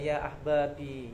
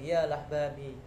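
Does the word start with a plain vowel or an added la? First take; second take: plain vowel; added la. First: The word begins directly with the vowel a. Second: The word begins with an added la sound. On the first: This is the original form. "Padahal aslinya ya ya ahbabi" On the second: This is the local dialect form. "Ada tambahan la"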